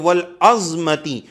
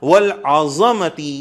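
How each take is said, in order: First: No vowel follows the z sound. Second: A short a vowel follows the z sound. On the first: Critics say it suggests bones. The speaker calls it wrong. "जज्म के साथ पढ़ना" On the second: It refers to greatness. The speaker calls it right. "जबर के साथ पढ़ना वल आज़मती यह बेहतर है"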